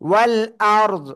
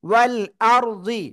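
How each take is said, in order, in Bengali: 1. শব্দটি সাকিনযুক্ত ব্যঞ্জন দিয়ে শেষ হয়। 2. শব্দটি ছোট 'i' স্বরধ্বনি দিয়ে শেষ হয়। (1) "থেমে যায় তাহলে জদ কি হবে? সাকিন হয়ে যাবে।" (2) "জদ জের জি"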